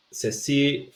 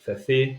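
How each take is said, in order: First: Ceci said as sesi; S sound. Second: Ceci said as thethi; th sound. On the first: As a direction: hiss Ceci with S. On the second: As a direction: lisp Ceci with th. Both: Shown as a demonstration.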